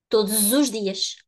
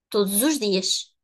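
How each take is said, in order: No difference in how they are said.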